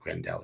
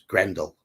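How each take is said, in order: First: The stress is on the second syllable. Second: The stress is on the first syllable. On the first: The speaker calls it wrong. "it's not Grendel" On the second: The speaker calls it right. "The emphasis on the first syllable"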